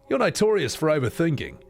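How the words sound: It is spoken in an Australian accent. "here's the Aussie version"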